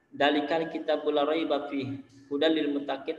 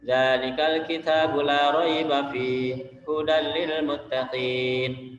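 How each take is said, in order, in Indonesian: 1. Semua vokal dibaca datar tanpa dipanjangkan. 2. Ada vokal yang dibaca panjang, ada yang dibaca pendek. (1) "membacanya dia datar. tidak ada panjang pendeknya" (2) "ini bacaan yang bertajwid ya, ada panjang, ada yang dibaca pendek"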